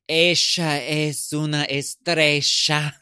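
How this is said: It is spoken with an Argentine accent.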